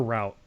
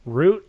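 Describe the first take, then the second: First: "route" pronounced like "rout"; rhymes with out. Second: "route" pronounced like "root"; rhymes with boot. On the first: Polling friend on pronunciation, "route" as "rout". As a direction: say "route" with an ow sound. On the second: Polling friend on pronunciation, "route" as "root". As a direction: say "route" with a long oo. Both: Shown as a demonstration.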